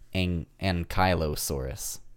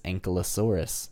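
First: The middle is said like 'Kylo'. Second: The middle is not said like 'Kylo'. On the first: The speaker calls it right. "Like Kylo Ren-saurus" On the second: The speaker calls it wrong. "I always thought it was Ankylosaurus"

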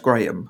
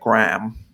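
First: Graham is said without the American pronunciation. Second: Graham is said with the American pronunciation.

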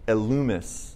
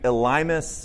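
First: The name is said with Greek vowels. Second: The name is said with English vowels. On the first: "if you do the Greek pronunciation, which I prefer" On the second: "this could be Elymas"

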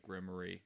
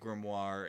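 First: It is pronounced the way the musical says it. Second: It is pronounced in the usual standard way. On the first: The speaker calls it wrong. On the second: The speaker calls it right.

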